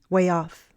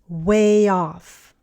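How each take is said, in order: First: The phrase is said faster. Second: The phrase is said slowly. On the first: "and then faster" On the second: "first slowly"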